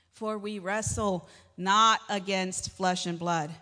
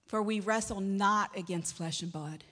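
First: Slow, weighty verse with "not" hit louder; emphatic repeat. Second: Said in the usual way. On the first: Real, not acted. Preacher repeats the verse to the congregation, slow and emphatic. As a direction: drive home "not against flesh and blood", word by word.

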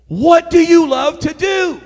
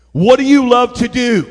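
First: High, loud, drawn out; insistent shout. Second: Louder, firm preaching delivery; emphatic question. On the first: Preacher overriding an excuse, insistent shouted question. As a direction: hammer each word slowly at full voice. Repeats question over the objection. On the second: Preacher challenging the church, emphatic. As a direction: press the question on them. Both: Real, not acted.

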